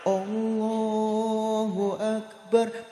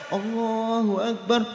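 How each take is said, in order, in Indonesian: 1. Frasa itu diucapkan lambat dan ditarik panjang. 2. Frasa itu diucapkan cepat dan sigap. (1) "takbiran alon-alon" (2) "takbiran cepet"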